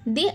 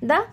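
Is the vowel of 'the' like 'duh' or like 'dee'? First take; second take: dee; duh. First: The word ends in a long 'ee' vowel. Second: The word ends in a short 'uh' vowel. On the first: The next word starts with a vowel. "ఆ నుండి అమహ మధ్యలో ఉంది కాబట్టి ది" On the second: The next word starts with a consonant. "కా నుండి బండిరా మధ్యలో ఉంది కాబట్టి మనం దీన్ని ఎలా పలకాలి ద"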